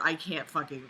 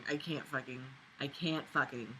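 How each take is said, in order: First: Said in the usual way. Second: "I can't fucking" falling away, softer and lower each time; trailing off, defeated. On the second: Real, not acted. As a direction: let it die in your throat. Trails off in exasperation.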